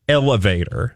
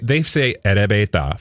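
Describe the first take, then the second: First: It is said with English-style sounds. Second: It is said with Japanese-style sounds. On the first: "They don't say elevator" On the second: "They say erebeta for elevator"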